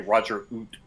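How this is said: It is said with a Canadian accent.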